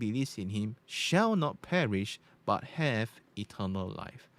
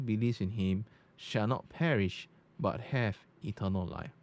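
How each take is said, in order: First: The voice has a bright, treble-boosted tone. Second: The voice has a dark, bass-heavy tone. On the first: "That's on bright" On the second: "Now you go to dark"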